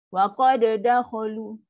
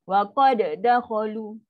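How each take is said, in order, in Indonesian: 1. Bunyi d dilepas dengan hentakan, lalu diulang. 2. Bunyi d dilepas dengan hentakan, lalu diulang.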